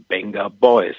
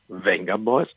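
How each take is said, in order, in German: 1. Der Name beginnt mit einem B-Laut. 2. Der Name beginnt mit einem V-Laut. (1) "das V wird als B gesprochen" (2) "genannt in Deutschland Venga Boys"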